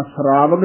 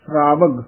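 First: ਸ਼ਰਾਵਗ with a full separate R; full R sound. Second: ਸ਼ਰਾਵਗ with SR run together; quick joined SR. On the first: Teacher shows students the mistake, full R in ਸ਼ਰਾਵਗ. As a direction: give the R in ਸ਼ਰਾਵਗ its whole syllable. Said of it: "ਇਹ ਰਾਰਾ ਪੂਰਾ ਲਾ ਕੇ ਨਹੀਂ ਬੋਲਣਾ". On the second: Teacher shows correct reading, ਸ਼ਰਾਵਗ with quick SR cluster. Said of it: "ਛੇਤੀ ਬੋਲਿਆ ਜਾਏਗਾ". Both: Shown as a demonstration.

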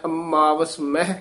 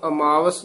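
First: ਅਮਾਵਸ with a pressed, doubled m; tightened m. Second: ਅਮਾਵਸ with a loose single m; single light m. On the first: Teacher modelling the tippi for a pupil, ਅਮਾਵਸ with firm double m. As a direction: lean on the m in ਅਮਾਵਸ. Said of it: "ਥੋੜ੍ਹਾ ਜਿਹਾ ਕੱਸ ਕੇ ਬੋਲਣਾ ਹੈ". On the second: Teacher showing what not to say, ਅਮਾਵਸ with light single m. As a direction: pass lightly over the m in ਅਮਾਵਸ. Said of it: "ਇਸ ਨੂੰ ਅਮਾਵਸ ਨਹੀਂ ਕਹਿਣਾ". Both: Shown as a demonstration.

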